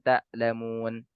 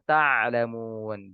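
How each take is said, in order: First: The middle consonant sounds like a glottal stop. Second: The middle consonant is a deep throat sound. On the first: You do not grieve. The speaker calls it wrong. "dibaca mirip dengan huruf hamzah" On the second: You do not know. The speaker calls it right. "Harusnya ta'lamun"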